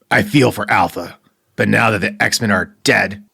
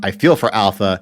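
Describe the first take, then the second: First: It is read in a put-on character voice. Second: It is read in the speaker's normal voice. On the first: "I'll do the voice" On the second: "I'm not going to try and do a Wolverine voice"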